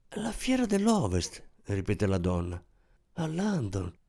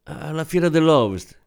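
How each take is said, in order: First: Awed repetition. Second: Said in the usual way. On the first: A narrator's reading. Shop assistant echoes Giovanna's answer, softly awed. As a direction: breathe the words with reverent wonder, as if it were a royal event. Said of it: "Con quel tono avrebbe potuto anche dire "al ballo di corte". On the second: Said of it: "sentì la propria voce proseguire".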